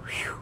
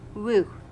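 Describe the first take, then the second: First: It is said as a breathy whew. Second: It is said as a plain woo. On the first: The speaker calls it right. "They go whew" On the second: The speaker calls it wrong. "pronounce things how they are spelled"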